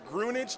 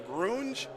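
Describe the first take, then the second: First: It has two syllables, ending like carnage. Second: It is said as one syllable, grunge.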